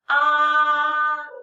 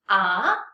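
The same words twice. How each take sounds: First: The pitch stays high and level. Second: The pitch rises like a question. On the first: "High and flat. Yes, it's the first tone" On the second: "This is the second tone. Remember what is second tone is a big question mark"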